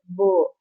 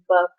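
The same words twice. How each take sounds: First: The vowel is long, Bangladeshi-style. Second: The vowel is short, standard English.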